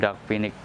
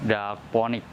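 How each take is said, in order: First: The second vowel is an 'i' sound. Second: The second vowel is an 'o' sound. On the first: This is the name used in the plant market. "sering disebut juga Anthurium dapinik" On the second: This follows how the name is written. "bisa dibaca juga Anthurium daponik"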